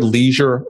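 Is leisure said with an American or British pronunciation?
American. It is said with an American pronunciation. "called the word leisure"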